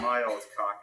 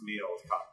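First: Put-on "My" with a full long I in "My old cock"; wrong version with MY. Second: "me" in place of "my", said softly; correct version with ME. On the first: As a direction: say "My" as in standard English. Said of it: "My old cock means something totally different". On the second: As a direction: quietly correct it to "me old cock". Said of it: "it's me old cock". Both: Shown as a demonstration.

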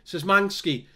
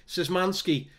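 Both takes have the same delivery.

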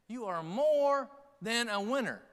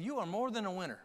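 First: "more" drawn out high, then a gap; stress on "more". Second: Said in the usual way. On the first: Acted. Preacher encouraging congregation, heavy stress on "more". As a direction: stretch the word "more" slowly and raise it. Repeats line for emphasis.

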